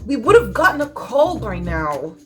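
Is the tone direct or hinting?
direct. The tone is blunt and pointedly critical. Something has clearly gone wrong. "used in a direct way"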